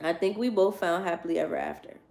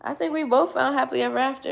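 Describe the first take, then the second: First: Measured, subdued read-aloud; quoting the book. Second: Higher, quicker, making it her own; personal opinion. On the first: Reading a storybook line to listeners, measured and subdued. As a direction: read the line back evenly. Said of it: "That's what it says". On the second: Making the book's line her own opinion, higher and quicker. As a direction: say it as your own lively conviction. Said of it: "if you ask me". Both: Real, not acted.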